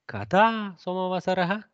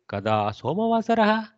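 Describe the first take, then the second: First: The pitch is raised on the word kada. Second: The pitch is not raised on kada. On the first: It is heard as a question. The speaker calls it right. "the tonality is always higher on the question portion" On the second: Nobody will understand it as a question. The speaker calls it wrong. "It won't be kada somavasarah"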